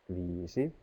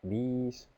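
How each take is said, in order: First: The word is said in full, two syllables. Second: The word is shortened, dropping the final vowel. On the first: This is the standard written language form. "The red one is in standard language" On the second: This is an everyday spoken language form. "The purple and the green are in spoken language"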